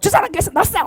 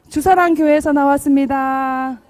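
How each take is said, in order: First: It is said harshly and forcefully. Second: It is said gently and warmly.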